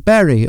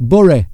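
First: Bury is said with a standard, non-local pronunciation. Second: Bury is said with a northern English local pronunciation.

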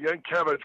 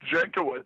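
First: The name begins with a Y sound. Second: The name begins with a J sound. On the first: This is the old-country form of the name. "old country guys pronounce it Yankiewicz" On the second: This is the Americanized form of the name. "we Americanized it"

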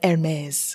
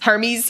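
First: It is said like the designer handbag brand. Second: It is said like the Greek god's name. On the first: The speaker calls it wrong. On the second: The speaker calls it right.

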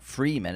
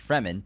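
First: The first vowel is a long ee sound. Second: The first vowel is a short e sound. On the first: The speaker calls it wrong. "It's not Freeman" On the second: The speaker calls it right. "It's one E. ... It's Fremen"

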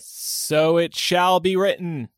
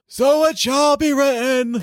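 First: It is said in a normal voice. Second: It is said in a put-on Trelawney voice.

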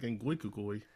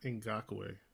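First: The surname is said as Ngwikukui. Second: The surname is said as Ngakoue. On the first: The speaker calls it wrong. "I was like, what are you saying? He was like" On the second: The speaker calls it right. "his name is Yannick Ngakoue"

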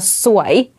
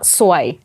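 First: It is said with the tone meaning beautiful. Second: It is said with the tone meaning bad luck. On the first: The word means beautiful. "se você falar suai, é bonita" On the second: The word means bad luck. "Se você falar suai, é bad luck"

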